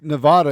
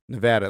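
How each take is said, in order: First: Nevada is pronounced in a Spanish way. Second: Nevada is pronounced in an English way.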